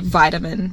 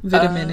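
First: It is said with the Australian pronunciation. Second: It is said with the South African pronunciation. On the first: "In Australia, they say vitamin" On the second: "whereas I say vitamin in South Africa"

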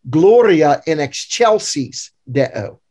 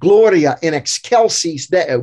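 First: It is pronounced in the Catholic church style. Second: It is pronounced in the classical Latin style. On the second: "In classical Latin"

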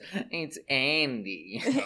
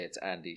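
First: It is said in a put-on imitating voice. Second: It is said in the speaker's ordinary voice. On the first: The speaker calls it right. "She says, it's Andy" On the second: The speaker calls it wrong. "She doesn't say it's Andy"

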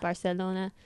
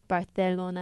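First: The 'c' is said as a plain 's'. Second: The 'c' is said as a lisped 'th'. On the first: This is the expected way to say it. "instead of Barcelona" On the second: This is how Spain's accent says it. "the Spanish accent like says like Barcelona"

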